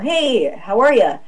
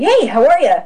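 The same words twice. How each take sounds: First: The greeting sounds cold and hostile. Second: The greeting sounds warm and delighted. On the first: The speaker dislikes the person. "Or I really don't like you. And I could go" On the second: The speaker is thrilled to meet someone new. "wow, I've never met you before. So it's kind of like"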